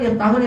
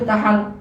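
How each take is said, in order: First: The word ends with a linking 'u' vowel. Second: The word ends with a linking 'a' vowel.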